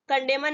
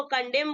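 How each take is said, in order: First: कंडेमन with the final N sounded; mispronounced condemn, N heard; wrong pronunciation. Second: कंडेम ending on M; silent N. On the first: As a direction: say कंडेमन with an extra 'an' ending. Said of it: "कंडेमन नहीं बोलेंगे". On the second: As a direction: say कंडेम with no N after M. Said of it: "इसको कंडेम बोलेंगे". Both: Shown as a demonstration.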